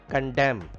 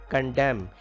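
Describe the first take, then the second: The two takes are said the same way.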